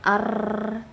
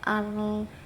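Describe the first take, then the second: First: The r has a long, exaggerated trill. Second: The r is said with no trill. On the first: "tidak berlebihan" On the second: "tidak keluar takrirnya"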